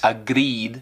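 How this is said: It is said with a marked foreign accent. "agreed em vez de"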